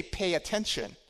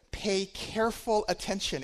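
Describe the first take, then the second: First: Said in the usual way. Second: Careful slowed and weighted, falling; slow down and lean on careful; stress on careful. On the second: Shown as a demonstration. Preacher quoting verse twenty-one, stressing careful. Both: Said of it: "It didn't just say".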